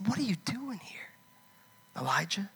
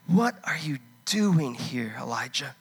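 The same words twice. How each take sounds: First: God's question in a whisper; hushed whispered voice of God. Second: Slow, gentle voice of God asking; lightly voiced God, slow and probing; God's voice. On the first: Acted. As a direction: whisper it like a still small voice. God's still small voice. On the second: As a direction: ask it slowly, searching. God questions Elijah in cave.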